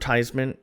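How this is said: It is said with an American pronunciation. "here in the U S"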